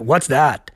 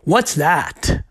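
First: It sounds negative and disgusted. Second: It sounds curious, with a higher pitch.

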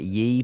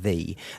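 First: The word begins with a y sound. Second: The word begins with a th sound. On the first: The speaker calls it wrong. "everyone pronounces it ye" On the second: The speaker calls it right. "you do still pronounce it the"

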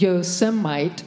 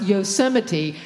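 First: The name is said the way its spelling suggests. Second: The name is said in its actual accepted form. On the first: This is how the spelling would lead one to say it. "we would naturally assume that it is pronounced Yosemite" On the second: This is how the name is actually said. "but it is somehow pronounced Yosemite"

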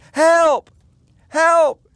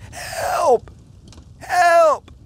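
First: It is shouted very loudly. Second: It is squeaked out weakly and quietly.

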